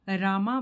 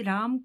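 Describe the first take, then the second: First: The name ends with an added a vowel. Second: The name ends on the consonant m. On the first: The speaker calls it wrong. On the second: The speaker calls it right.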